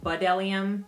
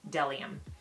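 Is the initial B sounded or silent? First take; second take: sounded; silent. First: The word begins with a sounded B syllable. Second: The word begins directly with a D sound. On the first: The speaker calls it wrong. "It looks like you would pronounce it Budelium" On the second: The speaker calls it right. "but it's actually Delium"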